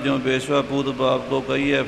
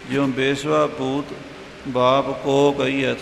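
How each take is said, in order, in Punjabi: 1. ਇਹ ਸਤਰ ਜਲਦੀ-ਜਲਦੀ, ਕਾਹਲੀ ਨਾਲ ਕਹੀ ਜਾਂਦੀ ਹੈ। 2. ਇਹ ਸਤਰ ਹੌਲੀ-ਹੌਲੀ, ਉੱਚੀ ਆਵਾਜ਼ ਵਿੱਚ ਕਹੀ ਜਾਂਦੀ ਹੈ। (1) "ਜੇ ਕਾਹਲੀ ਨਾਲ" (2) "ਥੋੜ੍ਹਾ ਜਿਹਾ ਉੱਚਾ ਕਰਕੇ ਵੀ ਕੌਣ ਹੈ ਉਹਦਾ ਬਾਪ"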